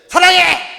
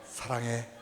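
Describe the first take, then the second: First: It is said loudly and forcefully. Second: It is said quietly and gently. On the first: The speaker calls it wrong. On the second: The speaker calls it right.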